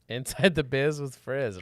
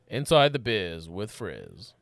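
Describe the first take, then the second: First: It is said at a normal, quick pace. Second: It is said slower and more meaningfully.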